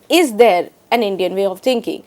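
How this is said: The stress falls on the word is. "italicized the word is"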